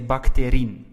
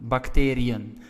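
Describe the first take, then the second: First: The i and e merge into one vowel sound. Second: The i and e are pronounced as separate vowels. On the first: The speaker calls it wrong. "If you do not put that trema, we will say bacterin" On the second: The speaker calls it right. "to show that we have to pronounce the I and the E separately"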